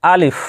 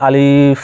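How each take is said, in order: First: "আলিফ" short, with no stretched vowel; টান ছাড়া. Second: "আলিফ" with the i stretched long; ভুল টান. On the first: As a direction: say "আলিফ" briskly, without dragging it. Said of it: "এখানে টান দেওয়া যাবে না". ("আলিফ" না টেনে ছোট করে) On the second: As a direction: drag the second vowel of "আলিফ". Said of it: "এরকমও নয়". ("আলিফ"-এর ই স্বর লম্বা টেনে) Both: Shown as a demonstration.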